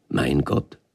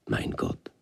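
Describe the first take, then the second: First: Voiced, rising in wonder; puzzled question. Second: Hushed breathless whisper; awed whisper. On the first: Moses wondering who his God is, rising tone. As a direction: let it lift into a question. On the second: Moses overwhelmed before the bush, whispering. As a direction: breathe it out in awe. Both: A narrator's reading.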